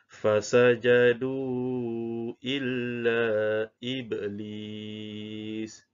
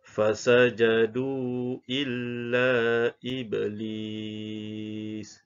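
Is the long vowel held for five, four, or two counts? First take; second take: four counts; two counts. First: The long vowel is held for four counts. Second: The long vowel is held for two counts. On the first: "Sekiranya kita baca dengan kadar empat harakat" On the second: "kita baca dengan kadar dua harakat"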